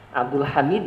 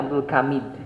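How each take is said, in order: First: The second word begins with a throaty h. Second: The second word begins with a k sound.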